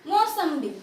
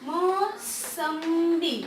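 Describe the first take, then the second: First: Said in the usual way. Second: mosambi drawn out very slowly, syllable by syllable; slow teacher sounding out of mosambi. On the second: Shown as a demonstration. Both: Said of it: "अब जैसे मैं अगर यहाँ पे लिख दूँ".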